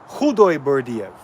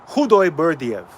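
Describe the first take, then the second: No difference in how they are said.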